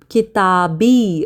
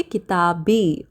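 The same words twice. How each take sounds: First: किताबी said slowly, every syllable clear; slow careful Arabic word. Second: Said in the usual way. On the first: Shown as a demonstration. Teacher modeling किताबी for students, slow and careful. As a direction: spell out किताबी slowly for the class. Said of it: "तो my book". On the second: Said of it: "okay, किताबी".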